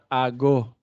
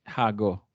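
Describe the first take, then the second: First: The word starts with a vowel, no h sound. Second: The word starts with an audible h sound. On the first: The speaker calls it right. "dapat ago" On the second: The speaker calls it wrong. "hindi hago"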